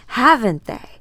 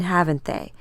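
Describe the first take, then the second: First: Louder, higher taunting repeat; a cruel taunt thrown back in her face; mocking shout. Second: Said in the usual way.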